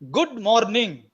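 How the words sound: Every written letter is pronounced, Telugu style. The speaker calls it wrong. "the Telugu way of pronouncing the, the expression"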